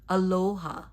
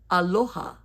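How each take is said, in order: First: The O is drawn out like English 'low'. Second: The O is short and pure. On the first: The speaker calls it wrong. "it gets mispronounced as aloha" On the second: The speaker calls it right. "that we pronounce it this way"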